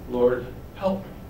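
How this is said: It is said softly, like a begging plea. She is humbly begging on her knees. The speaker calls it right. "I think it's like"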